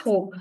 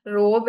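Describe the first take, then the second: First: ROBE with a throaty, rasped French R; correct French R. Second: ROBE with an English "r", tongue forward; wrong English R. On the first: Teacher models the correct word for learners, French-R pronunciation. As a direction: say ROBE starting from the back of the throat. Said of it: "the correct pronunciation is robe". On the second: Teacher shows class what to avoid, English-R mispronunciation. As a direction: say ROBE as in English, no throat sound. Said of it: "it's not robe". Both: Shown as a demonstration.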